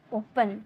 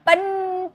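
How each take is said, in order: First: Soft ओपन with पन left light; unstressed final syllable. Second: पन held long and pushed higher; mock over-stressed पन, stretched out; wrongly stressed syllable. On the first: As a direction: say ओपन simply, no push on पन. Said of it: "इसमें आप जोड़ नहीं दोगे". (ओपन धीमे से, पन पर ज़ोर नहीं) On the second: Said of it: "पन थोड़ी बोल रहे". (पन को खींचकर, ज़ोर से दिखाना) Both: Shown as a demonstration.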